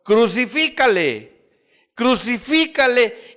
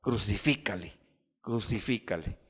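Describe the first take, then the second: First: High, loud, drawn-out cry of a mob; crowd's shout. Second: Low, soft echo of a crowd's cry; subdued retold shout. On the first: Retold or imitated. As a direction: shout it slowly, demanding a condemnation. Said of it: "ellos gritaron". (grito alto y alargado de la turba) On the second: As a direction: recall the mob's shout quietly and gravely. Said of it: "que un día gritaron". (grito recordado en voz baja y grave)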